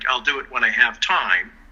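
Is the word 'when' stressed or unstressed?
unstressed. The word 'when' is not stressed.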